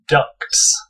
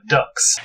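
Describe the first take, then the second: First: The t is clearly pronounced before the final s. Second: The t is dropped, so it sounds like ducks. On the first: The speaker calls it right. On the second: The speaker calls it wrong.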